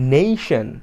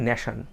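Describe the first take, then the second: First: The first vowel is an 'ay' glide. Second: The first vowel is a flat 'a' sound. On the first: The speaker calls it right. "Correct প্রোনাউন্সিয়েশনটা" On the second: The speaker calls it wrong. "জাতীয়ভাবে বলা হয় ন্যাশন"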